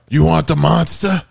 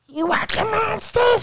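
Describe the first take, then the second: First: It is said in a lower voice. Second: It is said in a high-pitched voice.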